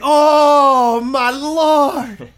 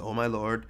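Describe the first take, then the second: First: It is said with strong, anguished feeling. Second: It is said in a flat monotone. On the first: The speaker is deeply burdened and distressed. The speaker calls it right. "But Daniel was saying" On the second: The words are read without feeling. The speaker calls it wrong. "like it's monotone in our head"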